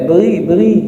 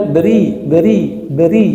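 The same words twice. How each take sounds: First: Tense the back of the tongue on "beri"; thick ri. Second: "beri" with a thin, light ri. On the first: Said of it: "Ini enggak". ("beri" dengan ri tebal) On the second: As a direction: say "beri" with a relaxed tongue and thin r. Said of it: "tapi kok tebel nih? Harusnya". ("beri" dengan ri tipis) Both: Shown as a demonstration.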